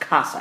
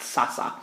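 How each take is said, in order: First: The word begins with a K sound. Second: The word begins with an S sound. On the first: The speaker calls it right. "that's a hard C sound" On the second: The speaker calls it wrong. "and not sasa"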